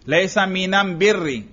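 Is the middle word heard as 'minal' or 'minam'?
minam. The article is pronounced with an m sound. This is the Himyar tribe's dialect form. "लाम की जगह मीम इस्तेमाल करते हैं"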